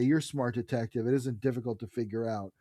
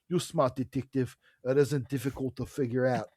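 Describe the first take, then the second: First: It is read in a neutral, plain accent. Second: It is read in a put-on South African accent.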